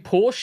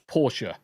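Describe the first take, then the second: First: It is said the British way. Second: It is said a non-British way. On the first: This is how people in the UK say it. The speaker calls it right. "we say Porsche in the U K" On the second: This is how people outside the UK say it. The speaker calls it wrong.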